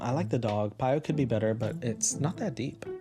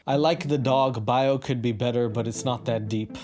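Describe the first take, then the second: First: It is read in a put-on teenager voice. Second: It is read in a plain voice.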